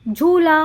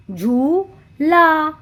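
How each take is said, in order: First: Said in the usual way. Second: "झूला" broken into झू... ला; "झूला" very slow, paused after झू; syllable by syllable. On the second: Shown as a demonstration. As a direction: draw out each half of "झूला". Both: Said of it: "तो हमने कहा झू".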